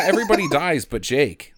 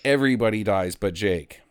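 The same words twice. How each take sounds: First: Laughing. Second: Said in the usual way. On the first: Real, not acted. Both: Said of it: "Like, everybody dies but Jake".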